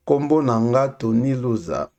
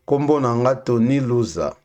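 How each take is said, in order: Both takes have the same delivery.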